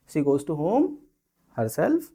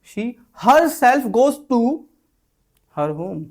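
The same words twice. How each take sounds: First: Said in the usual way. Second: Herself punched loud and high, slow; with emphasis. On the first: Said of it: "ये तरीका हो गया बोलने का". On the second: Shown as a demonstration. Telling a stubborn listener, stressing herself. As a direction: lean on herself. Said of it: "नहीं मान रहा था ऐसे बोलो".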